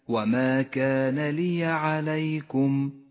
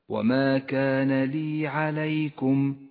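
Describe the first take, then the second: First: The y in li carries an a vowel. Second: The y in li carries no a vowel. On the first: The speaker calls it right. "احذر من اللحن في كلمة لي" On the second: The speaker calls it wrong. "وإياك أن تهمل فتحة حرف الياء، أي هكذا"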